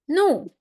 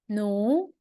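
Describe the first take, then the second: First: The pitch falls sharply from high. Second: The pitch rises from mid to high. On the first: "and the last tone" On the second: "second tone"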